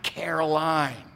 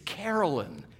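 First: The last syllable sounds like 'line'. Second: The last syllable sounds like 'lin'. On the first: The speaker calls it wrong. "not Caroline" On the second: The speaker calls it right. "it's Carolyn"

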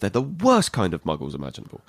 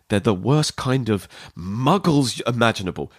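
First: The word 'worst' is stressed. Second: The word 'muggles' is stressed. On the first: These are the worst of the muggles. The speaker calls it right. "What she should say is" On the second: 'Muggles' sounds like a term of hatred. The speaker calls it wrong. "with the wrong emphasis ... she's saying it like it's a term of hatred"

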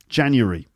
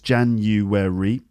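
First: It is said with three syllables. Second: It is said with four syllables.

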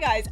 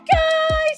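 First: It is said in a normal speaking voice. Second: It is said in a high-pitched phone voice.

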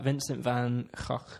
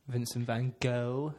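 First: The name is pronounced the Dutch way. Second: The name is pronounced the non-American English way. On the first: "which is the Dutch pronunciation" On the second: "if you're a non American"

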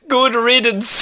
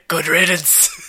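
First: It is said in a normal voice. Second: It is said in a deep, gravelly Batman voice.

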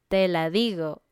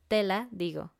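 First: The stress falls on 'di' in digo. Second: The stress falls on the opening 'te'. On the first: I say it to you. "I say it to you" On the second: The answer is cloth. "Tela. Pero tela"

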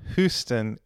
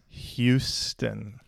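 First: Houston is said the British way. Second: Houston is said the local Texan way. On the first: The speaker calls it wrong. "it's not Houston" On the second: The speaker calls it right. "it's Houston"

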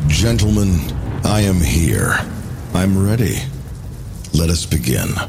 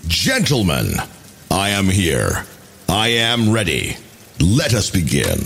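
First: It is said with little intensity. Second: It is said with great intensity.

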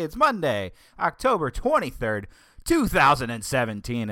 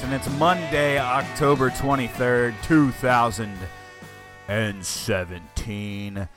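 First: It sounds very peppy and happy-go-lucky. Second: It sounds disgruntled and grumpy.

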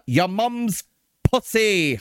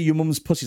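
First: Each word is said with exaggerated crisp articulation. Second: Each word is said casually and run together. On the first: "He sort of over-enunciates every word" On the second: "He doesn't say your mum's pussy"

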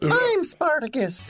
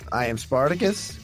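First: It is yelled loudly like a dramatic cry. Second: It is spoken at a normal conversational volume.

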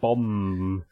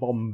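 First: The word ends with a long held M. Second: The word ends with a released B sound. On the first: The speaker calls it right. "but you're going bomb. You really pronounce the M" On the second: The speaker calls it wrong. "You're not plosiving it. You're not going bomb"

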